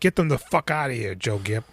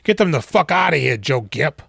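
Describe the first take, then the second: First: It is said quietly. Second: It is said loudly.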